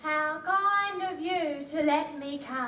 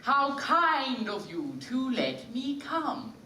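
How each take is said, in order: First: Quick, lower Cockney-vowelled copy; Cockney repeat. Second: "How kind of you to let me come" drawn out, "kind" with a clean long vowel; the refined ladylike line, very slowly; slow elegant model. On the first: Acted. Eliza trying the line, Cockney vowels. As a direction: rattle it off in Cockney. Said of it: "No, no, no, Eliza". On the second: Shown as a demonstration. Professor modelling genteel speech for Eliza. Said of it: "Now it's close, Eliza".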